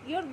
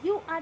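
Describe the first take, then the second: First: It is run together as one contracted syllable. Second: It is said as two separate full words. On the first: "এটা pronounce হবে ইউর" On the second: "মানে এটা হচ্ছে যে ইউ আর a good student"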